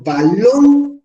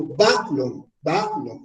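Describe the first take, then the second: First: Balón slow, LÓN higher and drawn out; balón with a strong rising second syllable; stress on last syllable. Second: Balón wrongly stressed on BA, dropping away; stress on first syllable. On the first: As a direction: lean hard on the end of balón. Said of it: "aquí va la fuerza". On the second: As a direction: punch BA, let LON fall in balón. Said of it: "no, digo balón". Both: Shown as a demonstration.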